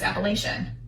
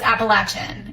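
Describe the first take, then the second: First: It is said the way Wisconsin speakers say it. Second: It is said the way local Appalachian speakers say it. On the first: This is how it was said where the speaker grew up. The speaker calls it wrong. "We were brought up in Wisconsin, and so we were brought up, it was Appalachian" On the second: This is how locals say it. The speaker calls it right. "I was told that's exactly how you say it"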